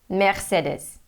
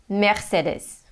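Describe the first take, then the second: First: It is said with a German pronunciation. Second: The same.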